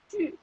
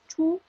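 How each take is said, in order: First: The vowel is 'ee' said with rounded lips. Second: The vowel is a plain 'oo' sound. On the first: The speaker calls it right. "es ch. Este sonido maravilloso que es como que yo digo i y mientras digo i cambio la boca U" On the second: The speaker calls it wrong. "no es chu"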